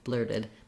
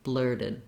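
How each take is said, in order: The two takes are said the same way.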